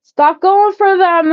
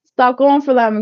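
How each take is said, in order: First: Loud, high, slow insistence; high slow loud urging; emphatic plea. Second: Said in the usual way. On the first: Real, not acted. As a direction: plead it out loud and drawn.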